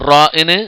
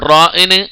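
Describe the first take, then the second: No difference in how they are said.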